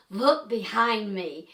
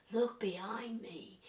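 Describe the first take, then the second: First: Said in the usual way. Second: Hushed, slow imitation of a background voice; very low voice. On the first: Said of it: "I heard something that said". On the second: Imitating the male spirit voice on the recording, very low. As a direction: whisper it slowly, barely there. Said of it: "It was very low".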